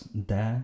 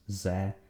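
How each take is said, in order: First: The word begins with a hard d sound. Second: The word begins with a buzzing z sound. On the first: "pronouncing it either as de" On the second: "or sometimes ze"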